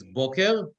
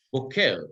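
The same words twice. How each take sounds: First: Boker stressed on the first syllable; stress on start of boker. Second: Boker stressed on the final syllable; stress on end of boker. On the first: Teacher giving word for morning, boker stressed on first syllable. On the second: Teacher giving word for cowboy, boker stressed on last syllable. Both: Shown as a demonstration. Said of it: "but the accent is different".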